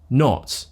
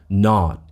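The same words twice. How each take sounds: First: The vowel is rounded, in a British way. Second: The vowel is unrounded, in an American way. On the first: "instead of not" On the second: "So they would say, for example, not"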